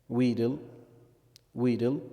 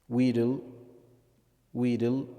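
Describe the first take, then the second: The two takes are said the same way.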